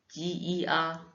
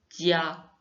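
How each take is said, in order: First: The sounds are said separately, one after another. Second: The sounds are joined into one smooth syllable. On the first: "on peut aussi dire ti, i, a" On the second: "vous les assemblez à la fin"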